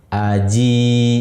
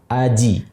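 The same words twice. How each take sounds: First: The final vowel is held long. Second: The final vowel is cut short. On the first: "panjang karena ada ya sukun tadi" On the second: "seandainya ya sukun ini dibuang menjadi pendek"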